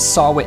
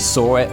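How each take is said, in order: First: The name does not sound like 'saw it'. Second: The name sounds just like 'saw it'. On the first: The speaker calls it wrong. "I've been pronouncing it as Sarwit" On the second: The speaker calls it right. "It's actually Sawit"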